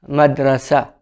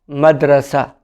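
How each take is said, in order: First: The word ends with an open 'a' vowel. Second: The same.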